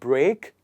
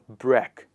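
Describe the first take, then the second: First: The vowel sounds like 'ay'. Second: The vowel sounds like 'eh'. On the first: The speaker calls it wrong. "It becomes eh, not a" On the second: The speaker calls it right. "It becomes eh"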